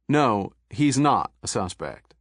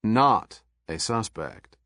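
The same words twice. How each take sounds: First: "not" leaned on, slow and deliberate; stress on not a suspect. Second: "not a suspect" even slower, each word pressed; heavier stress on not. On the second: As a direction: drag out "not a suspect" pointedly. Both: A narrator's reading. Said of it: "The very emphasis Pendergast placed".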